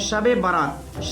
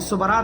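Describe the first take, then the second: First: It is said as two full, separate words. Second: It is said as one shortened, fused word. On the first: The speaker calls it right. "असल जो लफ्ज़ है वो है शब बारात" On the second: The speaker calls it wrong. "हम लोग लफ्ज़ गलत बोलते हैं"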